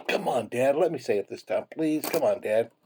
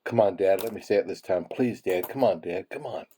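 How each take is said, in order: First: Higher-pitched begging little cactus; insistent pleading kid. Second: Understated little cactus begging Dad; mild pleading. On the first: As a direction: imitate a child pestering Dad, pitched up. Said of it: "and the little cactus was still". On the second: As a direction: lightly coax Dad, close to your own voice. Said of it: "the smaller cactus said to the bigger cactus". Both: Retold or imitated.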